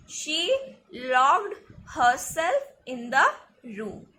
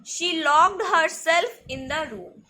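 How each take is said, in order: First: Slow dictation with a break between words. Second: Said in the usual way. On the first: Shown as a demonstration. Teacher repeating an example sentence for learners, slow word-by-word. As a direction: space out each word for learners.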